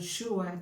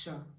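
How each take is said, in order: First: The syllable sounds like 'shua'. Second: The syllable sounds like 'shah'. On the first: The speaker calls it wrong. "it's not Shua" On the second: The speaker calls it right. "it's Shah"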